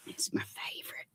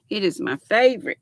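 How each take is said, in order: First: Soft secret whisper, barely any voice. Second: Said in the usual way. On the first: Real, not acted. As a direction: lean in and whisper it.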